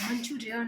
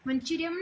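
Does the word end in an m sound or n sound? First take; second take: n sound; m sound. First: The word ends with an n sound. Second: The word ends with an m sound. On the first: The speaker calls it right. "મંચુરિયન આવે" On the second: The speaker calls it wrong. "મંચુરિયમ ના આવે"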